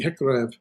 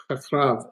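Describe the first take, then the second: First: Hekrev with E in both syllables; corrected vowels. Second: Hakrav with open A in both syllables; mistaken vowels. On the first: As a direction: say hekrev as heh-KREV, E rather than A. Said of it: "excuse me". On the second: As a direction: say hakrav as hah-KRAHV. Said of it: "hekra, excuse me, hekrev". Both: Shown as a demonstration.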